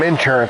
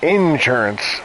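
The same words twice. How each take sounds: First: It is said in a plain accent. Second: It is said in a Southern accent.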